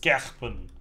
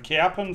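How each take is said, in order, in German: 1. Das R wird rheinländisch ausgesprochen. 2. Das R wird standarddeutsch ausgesprochen. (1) "Mit dem rheinländischen R" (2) "man darf nicht sagen Kerpen"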